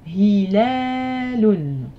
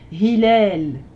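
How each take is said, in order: First: The word ends with a final -un syllable. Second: The word ends on l, without -un. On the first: "parfois vous voyez que le mot se termine par un" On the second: "j'aurais pu dire pour le croissant de lune, hilal"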